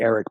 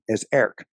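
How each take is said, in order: First: The name begins with a short 'eh' sound. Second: The name begins with an 'air' sound. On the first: The speaker calls it wrong. "I want to say" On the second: The speaker calls it right. "is Air with a K at the end"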